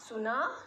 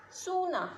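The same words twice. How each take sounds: First: सुना with a short, clipped उ; short u vowel. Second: सूना with a long, drawn ऊ, pitched up and falling; long uu vowel. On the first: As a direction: say सुना with a quick short u and a rising end. (सुना में छोटा उ, हल्का उठता स्वर) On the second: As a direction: stretch the ऊ in सूना, then let it fall. (सूना में लंबा ऊ, ऊँचा और उतरता स्वर) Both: Shown as a demonstration. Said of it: "फ़र्क क्या है उ और ऊ का".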